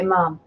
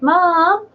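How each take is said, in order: First: It is said in a flat, neutral Dublin accent. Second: It is said in a singsong Cork lilt.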